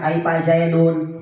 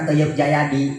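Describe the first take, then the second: First: Read with full Arabic vowels, ending in 'dun'. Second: Read with local vowels, ending in 'di'. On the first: The speaker calls it right. "Pan kuda membacana" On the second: The speaker calls it wrong.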